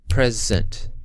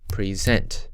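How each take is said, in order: First: The stress is on the first syllable. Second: The stress is on the second syllable. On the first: "the first syllable in present is slightly louder and slightly longer" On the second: "the first syllable is unstressed and the second syllable is stressed"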